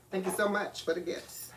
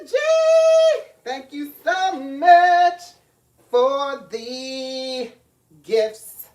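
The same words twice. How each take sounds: First: Said in the usual way. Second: Excited shout-out. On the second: Real, not acted. Greeting a viewer loudly.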